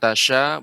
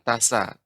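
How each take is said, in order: First: The consonant is a 'sh' sound. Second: The consonant is an 's' sound. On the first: "bukan tasya" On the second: "bukan tasa"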